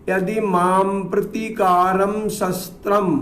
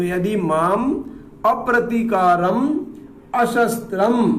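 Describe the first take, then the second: First: The negating 'a' vowel sounds are dropped. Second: The negating 'a' vowel sounds are fully pronounced. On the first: The meaning becomes the opposite. The speaker calls it wrong. "ऐसा नहीं होता।" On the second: Unresisting and unarmed. The speaker calls it right. "माँ पूरा उच्चारण करना पड़ेगा"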